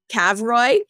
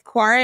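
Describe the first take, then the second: First: The name sounds like 'kav-roy'. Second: The name sounds like 'quarry'. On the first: The speaker calls it wrong. "initially I was calling it uh, Cavroy, and they were like, nah, that's not how you say it" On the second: The speaker calls it right. "but it's Quarry Arctic"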